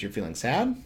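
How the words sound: The voice rises at the end. It is asked as a question. "that little inflection at the end turns it from a statement to a question"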